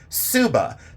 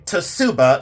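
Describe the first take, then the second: First: The word begins with a plain s sound. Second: The word begins with a ts sound. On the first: The speaker calls it right. "you say Suba" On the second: The speaker calls it wrong. "You don't say Tsuba"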